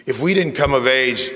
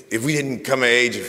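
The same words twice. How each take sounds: The two takes are said the same way.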